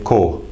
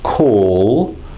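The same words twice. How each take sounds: First: The final L sound is dropped. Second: The final L is clearly pronounced. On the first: The speaker calls it wrong. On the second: The speaker calls it right.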